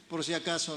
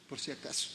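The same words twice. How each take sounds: First: Said in the usual way. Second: A soft unvoiced joking aside; whispered aside. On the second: Real, not acted. Pastor whispers a joke to the congregation, in a hushed voice.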